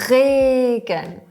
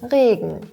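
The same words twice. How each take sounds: First: The R sound is strongly exaggerated. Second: The R sound is toned down and natural. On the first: "du startest übertrieben mit" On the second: "kannst du das ein bisschen runterschrauben"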